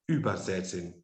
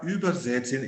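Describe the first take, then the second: First: The stress is on the first syllable. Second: No syllable is given extra stress. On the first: "se eu disser que o über é um prefixo, ela vai ser pronunciada como übersetzen" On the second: "eu estou procurando não é, acentuar nenhuma de suas partes"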